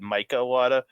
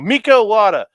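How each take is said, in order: First: The first name sounds like English 'Micah'. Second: The first name sounds like 'Mika', not 'Micah'. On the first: Someone else said it this way. The speaker calls it wrong. "they said Micah Iwata" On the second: The speaker prefers saying it this way. The speaker calls it right. "I'm just gonna go Mika Iwata"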